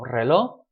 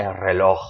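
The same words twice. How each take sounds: First: Reloj as re-LO, final j left off; "reloj" with no sound for the j; silent J. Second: Reloj with a raspy h sound at the end; "reloj" as re-LOKH, the final j sounded; pronounced J. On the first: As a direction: say reloj ending on a stressed open o. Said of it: "We don't so much pronounce that J". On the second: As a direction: finish reloj on an audible throaty j. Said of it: "you can try to pronounce it". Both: Shown as a demonstration.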